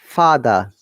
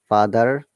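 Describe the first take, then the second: First: The final R sound is silent. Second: The final R sound is clearly pronounced. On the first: "British accent or British I P A" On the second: "You have to stress on R"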